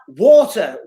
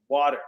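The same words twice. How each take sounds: First: It is said in a British accent. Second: It is said in an American accent. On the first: Americans do not understand it. The speaker calls it wrong. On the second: Americans understand it. The speaker calls it right.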